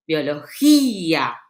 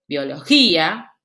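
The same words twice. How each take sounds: First: BIOLOGÍA slowed, with a long stressed Í; stressed closed vowel. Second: Said in the usual way. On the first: Shown as a demonstration. Teacher showing where the accent falls, stretched Í in BIOLOGÍA. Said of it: "tienen la acentuación de la palabra".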